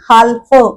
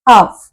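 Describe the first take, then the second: First: The word is said with an l sound. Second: The word is said with no l sound. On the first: The speaker calls it wrong. "हाल्फ असं ल चा उच्चार होतच नाही" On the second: The speaker calls it right. "आपण नुसतं हाफ इथे लिहिलंय असं म्हणतो"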